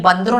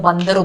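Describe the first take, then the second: First: बंद्रु said as two syllables, ban-dru, no vowel between d and r; clipped colloquial बंद्रु; बंद्रु as in everyday talk, the d and r run together; spoken short form. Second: बंदरु said in three syllables, ban-da-ru, with a clear a after the d; careful reading pronunciation बंदरु; बंदरु spelled out as on the page, every vowel sounded; full written form. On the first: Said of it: "उसमें बंद्रु नहीं बोलते हैं". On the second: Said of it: "उसमें बंदरु बोलते हैं". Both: Shown as a demonstration.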